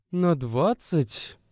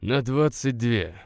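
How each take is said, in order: First: Slow, higher, drawn-out disbelief; mild incredulous echo; surprised. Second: Slow, stubborn, mildly cross insistence; a touch of cold stubbornness; stubborn and angry. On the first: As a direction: stretch it out as if she can't believe it. Woman disbelieving the exact minutes. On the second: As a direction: dig in on двадцать две, understated anger. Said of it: "упрямо и зло повторил он". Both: A narrator's reading.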